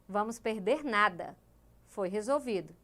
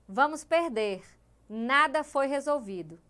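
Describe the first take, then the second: First: The pause comes after the word 'nada'. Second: The pause comes before the word 'nada'. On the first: They will lose nothing because it was solved. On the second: They will lose and nothing was solved.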